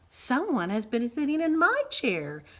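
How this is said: It is said in a medium-pitched voice. "cried Mama Bear in her middle-sized voice"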